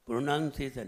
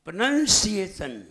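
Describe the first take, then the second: First: "प्रोनंसिएशन" low and casual, with a weak s; softer, run-together "प्रोनंसिएशन" as the mistake; wrong pronunciation. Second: "प्रोनंसिएशन" with "नन" and a strong hissed "सि"; deliberate, syllable-by-syllable "प्रोनंसिएशन"; correct pronunciation. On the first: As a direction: say "प्रोनंसिएशन" loosely, without stressing the syllables. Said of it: "प्रोनंसिएशन नहीं". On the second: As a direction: model "प्रोनंसिएशन" carefully, leaning on the s. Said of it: "बोलना सीखिए". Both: Shown as a demonstration.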